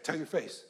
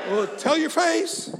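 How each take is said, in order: First: Understated retort. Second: High, loud, drawn-out challenge; rousing exhortation. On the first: Retold or imitated. Preacher retelling his reply to Pastor Eddie, understated retort. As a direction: drop it quietly, as a dry retort. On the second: Real, not acted. Preacher challenging the congregation about looking happy, rousing exhortation. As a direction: call it out slowly to the whole room.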